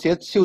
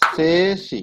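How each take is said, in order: First: A t sound is heard before the s. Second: No t sound is heard before the s. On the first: The speaker calls it wrong. "সেতসি উচ্চারণ করবেন না" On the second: The speaker calls it right. "কি উচ্চারণ করবেন? সেসি"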